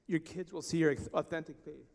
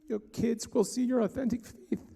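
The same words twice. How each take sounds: First: The voice stays steady and composed. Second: The voice cracks with emotion.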